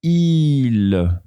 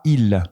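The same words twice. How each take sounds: First: "il" with the i held long for the circumflex; "il" with a drawn-out i sound. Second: "il" said short and clipped, the wrong way; short "il", vowel not held. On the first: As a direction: stretch the vowel of "il". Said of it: "l'accent circonflexe prolonge la voyelle". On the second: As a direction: show the mistake: a quick short "il". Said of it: "pas il". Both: Shown as a demonstration.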